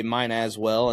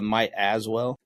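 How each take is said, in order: First: "mine" with an n in place of "might"; "mine as well", n sound before "as"; misheard phrase MINE. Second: "might" with a t before "as well"; "might as well", t sound before "as"; correct phrase MIGHT. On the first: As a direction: say "mine" ending on an n, running into "as well". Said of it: "I used to always say". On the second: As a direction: say "might" ending on a t, not an n. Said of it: "instead of". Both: Shown as a demonstration.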